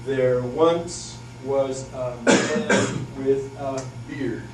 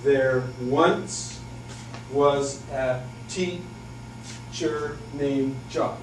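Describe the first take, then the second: First: Slow, with once stressed hard; sing-song the meter slowly; limerick rhythm. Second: Slow, with the beat hit on once; limerick rhythm. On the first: Teacher demos a second limerick opening, slow and lilting. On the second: Teacher demos a limerick's meter, slow and lilting. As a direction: lilt it out slowly. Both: Shown as a demonstration. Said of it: "So it would go something like this".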